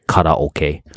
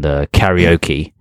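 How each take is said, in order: First: It is pronounced the Japanese way. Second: It is pronounced the English way.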